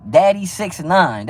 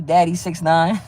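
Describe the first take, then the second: First: Slow, drawn-out mocking repeat; mocking drawl. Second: Said in the usual way. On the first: Real, not acted. Streamer mocks a viewer's suspect name, slow and drawn out. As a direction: stretch the name out to ridicule it. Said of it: "That's, that's suspect, man". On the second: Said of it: "you got a suspect ass name".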